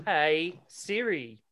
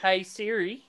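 First: Slow, drawn-out Aussie "Hey Siri"; Aussie accent. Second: Put-on higher Aussie-accented call to Siri. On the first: Pretend. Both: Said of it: "your Aussie accent's bullshit".

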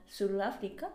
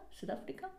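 First: Said in the usual way. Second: Whispered self-questioning Sudáfrica; unsure whispered Sudáfrica; whispered doubt. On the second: Real, not acted. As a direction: breathe the word as a puzzled question to herself. Doubting her own slip.

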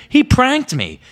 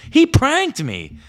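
First: High, loud outraged cry. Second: Slow, high, loud wail of betrayal; drawn-out outrage. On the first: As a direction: yell the accusation. Kid fuming at prankster friend. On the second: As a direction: stretch out the complaint. Repeated, drawn out. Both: Retold or imitated.

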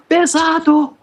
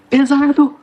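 First: Even higher strained yell from far off; shouting from above. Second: High, loud yell from far off; shouting from above. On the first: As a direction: yell it down, straining under the weight. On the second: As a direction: call down from up high, straining. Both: Acted. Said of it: "o Ori gritando lá de cima".

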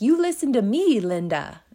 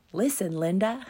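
First: Put-on high, loud little kid scolding Linda; bossy kid yelling. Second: Put-on kid's bossy line. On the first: A little kid scolding Linda, loud and high. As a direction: bark it like an outraged small child. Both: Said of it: "This little kid is like".

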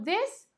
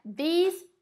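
First: THIS with a short, lax vowel; singular THIS, close to "dess". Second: THESE with a tense "ee"; long E in THESE. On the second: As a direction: plural THESE, vowel like "see". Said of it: "com Ezinho". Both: Shown as a demonstration.

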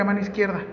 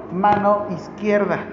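First: Said in the usual way. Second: Mano izquierda said slowly, every syllable set apart; slow instruction. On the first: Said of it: "búscale una vía periférica". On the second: Shown as a demonstration. Nurse giving a colleague a slow, clear order. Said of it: "Canalízalo, mano izquierda".

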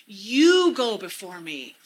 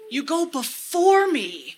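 First: YOU drawn out and louder; stress on YOU. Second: BEFORE pushed high and loud, drawn out; stress on BEFORE. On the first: Speaker praying the verse to Jesus, stressing YOU. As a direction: lean long on the word YOU. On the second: Speaker praying the verse to Jesus, stressing BEFORE. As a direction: hit the word BEFORE, slowly. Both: Shown as a demonstration. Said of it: "emphasizing different words to really get that".

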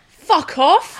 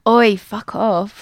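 First: Loud, higher Essex yell of fuck off; Essex shout. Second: Failed Essex attempt. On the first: Showing friends how to say it in an Essex accent, shouted. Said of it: "you got to go like this". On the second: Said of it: "Imagine I go". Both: Shown as a demonstration.

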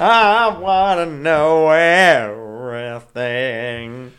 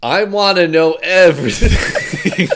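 First: Louder, stretched out, dragging it; slow, drawn-out echo. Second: Laughing, drawn out. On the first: Pretend. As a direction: mimic the line slowly and loud. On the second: Real, not acted. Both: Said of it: "Hey, that worked".

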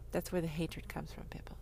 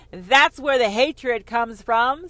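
First: Breathy unvoiced whisper to the crowd. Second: Slow, loud declaration; loud proclamation. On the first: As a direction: lean in and whisper it. Whispered aside to audience. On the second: Acted. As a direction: boom it out like a decree. Repeated line, now loud and slow.

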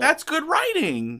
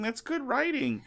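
First: Ironic praise. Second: Laughing irony. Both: Acted. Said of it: "So we were talking about writing".

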